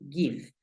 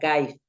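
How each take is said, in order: First: The vowel is a short 'i' sound. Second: The vowel sounds like the letter name 'eye'. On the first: The speaker calls it right. "Pero no, suena give" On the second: The speaker calls it wrong. "si aplicara la norma, sonaría give"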